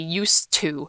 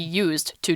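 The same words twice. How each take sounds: First: The two words run together as one unit. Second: The two words are said clearly apart. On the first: It means being accustomed to something. "it's with a T" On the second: It means being utilized for a purpose. "you separate used and to"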